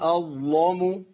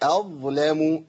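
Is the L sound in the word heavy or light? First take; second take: heavy; light. First: The L sound is heavy and thick. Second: The L sound is light and thin. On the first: The speaker calls it wrong. "اسمع الخطأ ده... ورش يغلظ ظلام، لكن حفص لا يغلظ ظلام" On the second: The speaker calls it right. "أيوة كده... واللام هي ابتسامة بسيطة"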